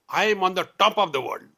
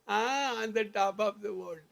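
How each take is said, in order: First: It is said loudly and forcefully. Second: It is said weakly, without conviction.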